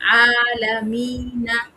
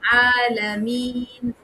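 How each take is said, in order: First: A short ee is followed by a final 'na'. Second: A longer ee ends on a held 'n'. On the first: The word is read on without stopping. "वरना मद्दा सिर्फ दो हरकत के उतना था" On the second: The reader stops at this word. "वो जाके क्या हो गया"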